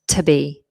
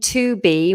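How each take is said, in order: First: The vowel in 'to' is almost dropped. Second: The vowel in 'to' is said in full. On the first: "we've got a weaker form" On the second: "rather than saying to be"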